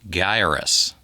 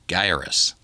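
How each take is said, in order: First: The first syllable sounds like 'guy'. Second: The first syllable sounds like 'guy'.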